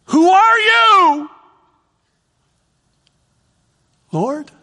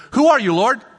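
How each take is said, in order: First: High, slow, loud cry; loud awestruck shout. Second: Said in the usual way. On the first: Shown as a demonstration. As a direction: shout it out in awe. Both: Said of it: "two ways he could say this".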